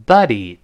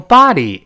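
First: Buddy with a short relaxed uh; uh vowel. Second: Body as BAH-dee with wide-open ah; American open ah. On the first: Teacher models the word for pal, short uh in buddy. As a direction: say buddy as BUH-dee. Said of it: "他发啊". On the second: Teacher contrasts the word for corpse, open ah in body. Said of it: "美音中读成body". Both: Shown as a demonstration.

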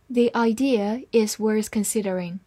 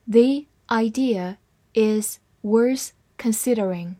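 First: Said in the usual way. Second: Slower careful reading of "The idea is worth considering"; slowed-down model sentence. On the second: Shown as a demonstration. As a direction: take it slowly. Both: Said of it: "慢慢来读".

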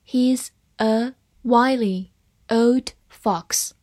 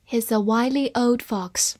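First: Very slow, one word at a time; slow read-along. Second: Said in the usual way. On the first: Shown as a demonstration. Teacher models the fox sentence for students, slow and separated. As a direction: give each word its own space for learners to repeat. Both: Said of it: "慢慢来读".

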